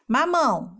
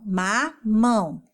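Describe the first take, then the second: First: Said in the usual way. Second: MAMÃO slowly split into ma-mão; syllable by syllable. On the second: Shown as a demonstration. Teacher counting syllables for children, slow ma-mão for MAMÃO. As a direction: stretch MAMÃO into two separate syllables. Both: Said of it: "as sílabas são os pedacinhos".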